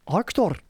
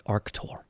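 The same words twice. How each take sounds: First: "Arctur" cried high as a Scottish ark-tor; high, emphatic Scottish "Arctur"; exclaimed Scottish accent. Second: "Arctur" said low-key in Scottish, broad "ark-tor"; name "Arctur" evenly with a Scottish vowel; "Arctur" as ark-tor, matter-of-fact; Scottish pronunciation. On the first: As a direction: burst out "Arctur" in broad Scottish. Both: Shown as a demonstration. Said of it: "that's how you say actor in Scottish".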